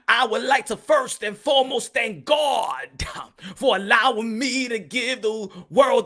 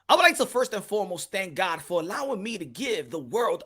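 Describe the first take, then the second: First: It is read in a church preacher's voice. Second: It is read in a plain, normal voice.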